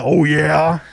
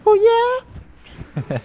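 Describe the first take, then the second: First: Lightly growled rock-singer catchphrase; a hint of the singer's signature shout. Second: Very high teenage rock-singer imitation. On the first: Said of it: "he's done the". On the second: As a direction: squeak the singer's catchphrase like a pubescent boy. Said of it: "when he was in puberty".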